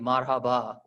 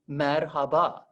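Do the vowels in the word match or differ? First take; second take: match; differ. First: The word has matching, harmonized vowels. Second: The word has mixed, non-matching vowels. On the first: This is how a native word would sound. "to have a harmony with your vowels" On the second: This is the real borrowed form. "there's no harmony with vowels"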